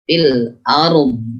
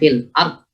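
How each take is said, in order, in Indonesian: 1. Bunyi akhir terus mengalir dan dipanjangkan. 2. Bunyi akhir terputus tiba-tiba. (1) "Ketika waqaf dia harus istitolah" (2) "bukan fil ard... Tidak langsung syiddah diputus ard"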